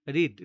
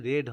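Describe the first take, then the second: First: রিড with a long "ee" vowel, loud; present-tense pronunciation. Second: রেড with a short "e" vowel; past-tense pronunciation. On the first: Teacher giving students the present form of read, careful pronunciation. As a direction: say রিড like "reed". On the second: Teacher correcting students on past tense of read, careful pronunciation. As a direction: say রেড like the colour red. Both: Shown as a demonstration. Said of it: "এই উচ্চারণটা কিন্তু রেড হবে".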